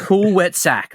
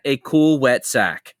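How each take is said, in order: First: Higher-pitched cartoon yokel repeating the lesson; mock cartoon student echo; Cletus. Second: Slow, deliberate cartoon lecturer; imitated instructor spelling it out; Simpsons parenting instructor. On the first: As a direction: imitate an eager note-taker, pitched up. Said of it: "Cletus, like, writes it down". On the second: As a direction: finish the cartoon lesson slowly, falling at the end. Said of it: "that clip from The Simpsons".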